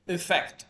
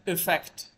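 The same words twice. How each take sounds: Both takes have the same delivery.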